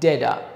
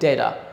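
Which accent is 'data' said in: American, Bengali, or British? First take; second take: American; American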